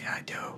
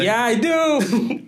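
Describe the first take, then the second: First: It is said quietly. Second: It is said loudly.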